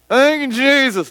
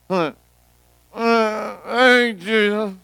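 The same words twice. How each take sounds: First: The words are spoken more clearly. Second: The words are mumbled and indistinct. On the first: The pain is easing and the speaker gains confidence. "my mumbles got a little bit clearer" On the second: The speaker is too embarrassed and in pain to speak up. "I began to mumble"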